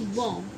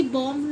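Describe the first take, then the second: First: बॉम्ब lower and softer, fading on m; correct silent b. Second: बॉम्ब with the last b sounded; mispronounced bomb. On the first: Teacher giving the correction, b silent. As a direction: drop बॉम्ब low, leaving off b. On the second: Teacher showing what not to say, b voiced. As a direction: pronounce the written b in बॉम्ब. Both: Shown as a demonstration. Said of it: "ऐसी बॉम्ब नहीं".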